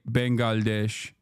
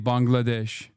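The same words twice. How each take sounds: First: The word is said with the older Turkish pronunciation. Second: The word is said with the current Turkish pronunciation. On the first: This is how it used to be said. "Turks used to say" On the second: This is how it is said now. "and now they say"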